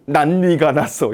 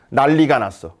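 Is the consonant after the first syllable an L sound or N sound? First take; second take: N sound; L sound. First: The middle consonant keeps an N sound. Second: The middle consonant becomes an L sound. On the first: The speaker calls it wrong. "이렇게 발음하지 않겠죠" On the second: The speaker calls it right. "얘는 이렇게 발음해야 되죠"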